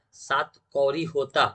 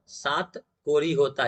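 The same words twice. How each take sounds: First: धीरे, "कौरी" with a long au; "सात कौरी होता" said slowly, stretching कौरी; first, slow take. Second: Very slow, "कोरी" with a plain o; corrected slow take. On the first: (सात कौरी धीरे-धीरे, "कौ" खींचकर) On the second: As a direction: say "सात कोरी होता" very slowly, कोरी clearly with o. (बहुत धीरे, "कोरी" साफ़ ओ के साथ) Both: Shown as a demonstration. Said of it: "कौन?".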